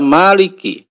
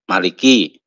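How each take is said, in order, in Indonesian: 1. Vokal pertama dibaca panjang. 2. Vokal pertama dibaca pendek.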